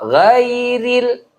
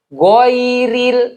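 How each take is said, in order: First: The first vowel is a clear, open 'a'. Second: The first vowel is a rounded 'o'. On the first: The speaker calls it right. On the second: The speaker calls it wrong.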